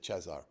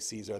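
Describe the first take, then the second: First: The name is pronounced as Romanian 'Cezar'. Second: The name is pronounced as English 'Caesar'. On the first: "they would say Cezar Brad" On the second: "We would say Caesar"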